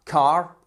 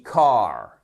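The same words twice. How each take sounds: First: CAR with a short A, cut off; wrong short vowel. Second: CAR with a long, drawn-out A, falling. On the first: Teacher showing learners how not to say car, short vowel. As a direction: say CAR briefly, as a mistake. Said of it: "On dit pas car". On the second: Teacher correcting learners on car, long vowel. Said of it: "une voyelle qui est un peu plus longue". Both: Shown as a demonstration.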